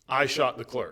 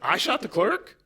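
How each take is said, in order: First: It sounds like a plain confession. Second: It sounds sarcastic and incredulous.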